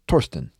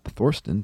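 First: It begins with a hard T sound. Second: It begins with a soft English TH sound. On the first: The speaker calls it right. "pronounced just like Thomas with a hard T" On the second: The speaker calls it wrong. "the TH in Thorsten is no English TH"

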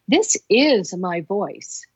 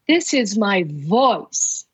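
First: The word 'is' carries the stress. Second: The word 'voice' carries the stress.

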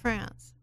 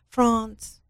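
First: It is said with an American accent. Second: It is said with a British accent.

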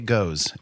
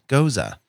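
First: The word is said as one syllable. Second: The word is said as two syllables. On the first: The speaker calls it wrong. "peasants in bars might say goes" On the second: The speaker calls it right. "Now you know better"

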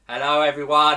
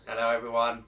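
First: It is said loudly. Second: It is said quietly.

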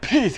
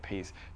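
First: It is yelled loudly. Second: It is said quietly under the breath.

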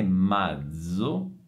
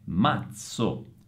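First: The z sound is voiced, like dz. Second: The z sound is voiceless, like ts. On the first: The speaker calls it wrong. "non è mazzo, non è sonora" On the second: The speaker calls it right. "ma è mazzo, sorda, come la Z di pizza"

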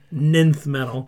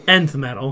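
First: The first word is pronounced like 'ninth'. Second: The first word is pronounced like 'enth'. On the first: The speaker calls it wrong. "That's another word he makes fun of me for saying wrong" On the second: The speaker calls it right. "What is it supposed to be?"

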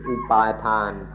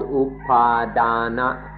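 First: It is pronounced in the Thai way. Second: It is pronounced in the standard Pali way. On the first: "or in Thai pronunciation" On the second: "This concept of me is called upadana"

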